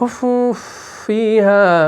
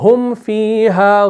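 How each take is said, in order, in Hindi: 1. m, अगली f ध्वनि में मिल जाता है। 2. f से पहले m साफ़ बना रहता है। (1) "आप ऐसे नहीं करेंगे" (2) "तो आप पढ़ेंगे"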